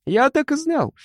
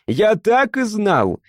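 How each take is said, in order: First: Much higher, jumping triumphant yell. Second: Higher, slow, drawn-out triumphant yell. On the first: Mishka yells at Frol, bursting with triumph, much higher. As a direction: leap up and howl it. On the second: Mishka repeats his triumph to Frol, higher and slow. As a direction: drag out the triumphant cry. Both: A narrator's reading. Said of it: "заорал Мишка и даже подпрыгнул".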